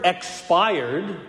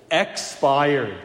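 First: Said in the usual way. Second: Expired with the EX leaned on; EX-pired, first syllable stressed. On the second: Shown as a demonstration. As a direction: hit the EX of Expired, then let it fall. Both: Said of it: "put the emphasis on the first syllable".

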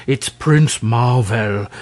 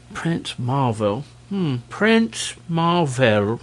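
First: Slow, irritated correction; irritable. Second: Musing repeat. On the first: King correcting the dragon about the stranger, irritable. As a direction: spell it out, testily and slowly. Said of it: "exclaimed the king irritably". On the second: Dragon repeating the stranger's name, musing. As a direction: mull the name over slowly. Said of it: "repeated the dragon". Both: A narrator's reading.

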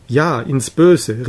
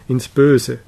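First: Drawn-out, mildly emphatic cry; understated, stretched-out exclamation. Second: Said in the usual way. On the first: A narrator's reading. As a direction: call it out slowly, with restraint. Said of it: "rief der Jüngling".

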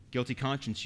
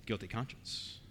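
First: Said in the usual way. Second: Hushed answer. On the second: Real, not acted. Preacher answers his own question.

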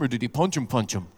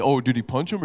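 First: Low 'punch him', then a lower, softer 'punch him'; mock-knowing, second 'punch him' falling away; mock doubled emphasis. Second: Low imitation, 'punch him' rising at the end; men aping women's talk, 'punch him' left open; mock question. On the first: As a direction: lean on 'punch', repeat 'punch him' confidentially. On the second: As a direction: ask it low, lifting on 'him'. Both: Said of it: "Men don't talk like that".

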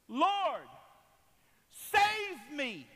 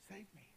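First: Loud, high, desperate plea; drawn-out shouted prayer; crying out to God. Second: Very soft, intimate appeal; hushed, earnest request; quiet plea. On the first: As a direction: cry out to heaven at full voice. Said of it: "I cried to the Lord". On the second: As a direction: say it almost to yourself, as a private prayer. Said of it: "what was he really saying". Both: Acted.

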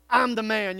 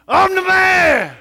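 First: Said in the usual way. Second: Much louder and higher, slow and full-throated; big man shout. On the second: Shown as a demonstration. Pastor leads the men in a stadium-style shout. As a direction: bellow it like at the football game. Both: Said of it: "as loud as we can in our best man voice".

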